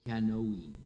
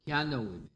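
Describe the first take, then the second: First: The last syllable is lengthened into a long vowel. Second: The last syllable is short and barely heard. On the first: "lengthened out to a long I sound, like Kianoime" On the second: "the last syllable is almost unheard"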